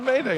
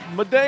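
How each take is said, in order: First: The first syllable sounds like 'may'. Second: The first syllable sounds like 'mid'. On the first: "Is it Mayday?" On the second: "I'm going with Midday"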